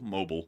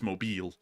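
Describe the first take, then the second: First: It is said the way outsiders pronounce it. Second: It is said the way locals pronounce it. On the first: The speaker calls it wrong. "that's the wrong way to pronounce it" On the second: The speaker calls it right. "It's Mobile"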